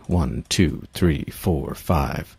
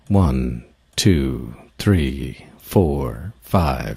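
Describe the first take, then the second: First: It is counted at a fast pace. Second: It is counted at a slow pace.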